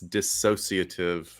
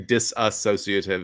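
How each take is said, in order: First: No extra syllable follows the first syllable. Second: An extra syllable follows the first syllable. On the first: The speaker calls it right. "leave out that extra syllable" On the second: The speaker calls it wrong. "don't say disassociative"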